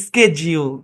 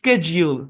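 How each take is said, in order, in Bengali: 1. শব্দটি 'sk' ধ্বনি দিয়ে শুরু হয়। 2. শব্দটি 'sk' ধ্বনি দিয়ে শুরু হয়।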